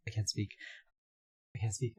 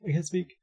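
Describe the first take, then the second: First: Said in the usual way. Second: High, loud mock gasp of shock. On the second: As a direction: play it stunned, voice jumping up. Playing shocked.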